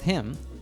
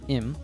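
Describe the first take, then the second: First: The h sound at the start is pronounced. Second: The h sound at the start is dropped. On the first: "we also do this with him"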